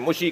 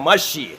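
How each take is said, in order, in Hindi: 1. पहला स्वर u की आवाज़ है। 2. पहला स्वर a की आवाज़ है। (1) "कोई मुशी कहता है" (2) "सही लफ्ज़ है मशी"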